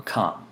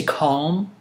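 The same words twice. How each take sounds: First: "calm" short and falling, L left silent. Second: "calm" stretched with the L sounded, rising; drawn-out calm. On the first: Offering the other option, "calm" with silent L. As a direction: say "calm" briefly without any L. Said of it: "or calm?". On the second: Asking how you say it, "calm" with a sounded L. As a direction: say "calm" long, voicing the L. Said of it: "Do you say calm". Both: Shown as a demonstration.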